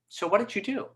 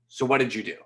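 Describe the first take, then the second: First: The voice rises gently at the end. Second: The voice stays flat and falls at the end. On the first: The questioner sounds gentle and sympathetic. The speaker calls it right. "Going up like that changed the feel" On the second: The questioner sounds serious and cold. The speaker calls it wrong. "I didn't say"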